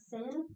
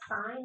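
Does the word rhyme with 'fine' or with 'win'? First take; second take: win; fine. First: The vowel is a short 'ih' sound. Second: The vowel is a long 'eye' sound. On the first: The speaker calls it wrong. "not sin" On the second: The speaker calls it right. "It is pronounced sine"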